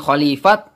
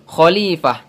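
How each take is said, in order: First: The word ends with a t sound. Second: The word ends with an h sound. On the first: The speaker calls it wrong. "Bukan khalifat" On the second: The speaker calls it right. "akan tetapi khalifah"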